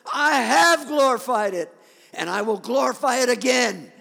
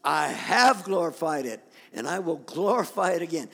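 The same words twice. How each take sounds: First: Voice from heaven. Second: Lightly voiced thunder from heaven; measured proclamation with a firm push on HAVE. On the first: Acted. God answers Jesus before the crowd, booming thunderous voice. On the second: God speaks over a thousand people, restrained thunder. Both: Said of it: "a voice like thunder".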